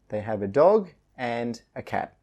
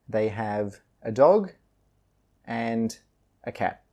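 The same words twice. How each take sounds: First: The sentence is read faster, with reduced 'a'. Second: The sentence is read slowly and carefully. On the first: "then a bit faster" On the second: "first slowly"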